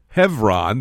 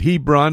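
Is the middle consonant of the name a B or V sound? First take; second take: V; B. First: The middle consonant is a V sound. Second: The middle consonant is a B sound. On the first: "In the Hebrew, it's pronounced Hebron, the B having a V sound" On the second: "You may pronounce it Hebron, H-E-B-R-O-N"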